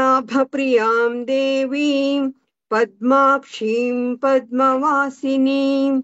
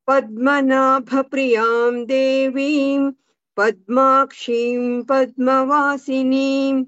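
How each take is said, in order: Both takes have the same delivery.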